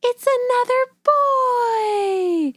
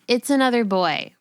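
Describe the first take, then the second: First: It is said excitedly, with a gasp. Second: It is said flatly, without excitement.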